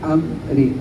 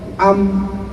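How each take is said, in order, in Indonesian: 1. Konsonan akhir diikuti vokal pendek yang lemah. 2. Konsonan akhir terpotong dan hampir tidak terdengar. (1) "Harus itu kalau mau cara raum"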